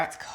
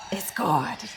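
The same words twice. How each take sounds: First: Said in the usual way. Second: Hushed, breathy whisper of praise. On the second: Real, not acted. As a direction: whisper it like a secret. Repeats her praise, second whispered.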